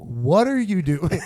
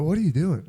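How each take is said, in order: First: Slow, stretched-out question; trippy slow-motion. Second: Said in the usual way. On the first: Retold or imitated. Kid confronting tripping line-cutter, heard in slow motion. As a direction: drag every word out as if time is warping.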